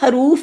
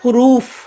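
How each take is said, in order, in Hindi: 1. पहला स्वर 'a' की आवाज़ है। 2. पहला स्वर 'u' की आवाज़ है। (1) "अक्सर लोग इसको हरूफ बोल रहे होते हैं" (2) "तो ये होता है हुरूफ"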